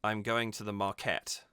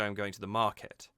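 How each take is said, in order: First: "market" with the weight pushed onto KET; stress on second syllable. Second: "market" with the natural weight on MAR; stress on first syllable. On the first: Singing coach shows what we don't say, "market" stressed on KET. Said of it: "we don't say". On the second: Singing coach shows natural speech, "market" stressed on MAR. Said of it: "You say". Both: Shown as a demonstration.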